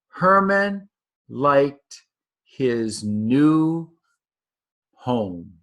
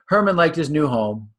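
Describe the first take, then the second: First: Long pauses separate the final words. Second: The words run on without long pauses.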